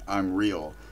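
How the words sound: It is said boldly and confidently. The speaker is declaring a certainty. "he is proclaiming it"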